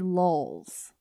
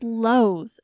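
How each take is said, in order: First: An extra L sound is added before the end. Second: No extra L sound is added before the end. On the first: The speaker calls it wrong. "You like add a weird L on the end of Lowell's" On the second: The speaker calls it right. "It's Lowe's"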